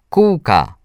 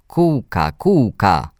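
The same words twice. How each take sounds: First: Put-on high-pitched happy call of a little boy; joyful shout. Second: Hoarse little brother calling. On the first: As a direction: call it out with delight. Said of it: "zawołał radośnie Mikołaj". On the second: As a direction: call out like a small, hoarse boy. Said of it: "zawołał mój brat ochrypłym głosem". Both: A narrator's reading.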